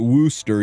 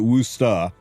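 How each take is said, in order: First: The word is said in a non-local way. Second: The word is said the local Massachusetts way. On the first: The speaker calls it wrong. "You don't pronounce it" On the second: The speaker calls it right. "If you're from Massachusetts, You pronounce it"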